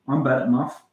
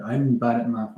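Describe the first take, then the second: First: Put-on Scottish lilt; Scottish accent. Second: Said in the usual way. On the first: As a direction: say it like a Scot. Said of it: "Scottish accent". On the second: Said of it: "Now I'm talking in a".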